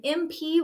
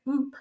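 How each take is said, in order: First: Said in the usual way. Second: "mp" as one blended sound, not letter names. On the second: Shown as a demonstration. Teacher modelling how students blend "mp". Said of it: "M P would stay together".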